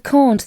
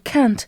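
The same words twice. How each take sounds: First: It is said in a non-American way. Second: It is said in the American way. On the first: The speaker calls it right. "Instead of can't" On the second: The speaker calls it wrong. "Some people in the U S A ... they call it can't"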